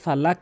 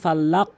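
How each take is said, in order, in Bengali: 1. শেষের ব্যঞ্জনটি ঝাঁকি ছাড়াই সোজাসুজি থেমে যায়। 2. শেষের ব্যঞ্জনটি একটি চাপযুক্ত ঝাঁকির সঙ্গে ছাড়া হয়। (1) "অধিকাংশ লোক এখানে ভুল করে থাকে" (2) "এভাবে ধাক্কা দিবেন"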